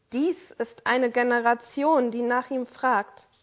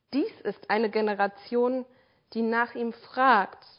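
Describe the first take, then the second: Both takes have the same delivery.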